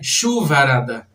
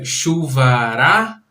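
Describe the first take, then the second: First: The stress is on a different syllable. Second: The stress is on the syllable ra. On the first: The speaker calls it wrong. "não é chuvarada" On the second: The speaker calls it right. "A tônica não está em chu, está em irá"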